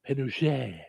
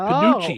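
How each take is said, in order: First: The middle sound is said the French way. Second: The middle sound is 'ch' as in cheese. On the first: The speaker calls it wrong. "I was going French, like panuche, but that's not what it is" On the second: The speaker calls it right. "It's chi, like as in cheese"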